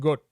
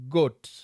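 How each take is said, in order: First: The final T sound is dropped. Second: The final T sound is clearly pronounced. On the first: "They don't pronounce the T" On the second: "when you come from Kenya"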